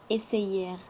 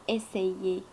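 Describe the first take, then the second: First: The ending is said with an audible r. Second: The ending is said like é, without r. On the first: The speaker calls it wrong. "on ne dit pas essayer" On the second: The speaker calls it right. "er on la prononce comme est"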